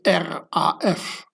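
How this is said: The letters are spoken with German letter names. It refers to the Red Army Faction. "So in German, you say R A F"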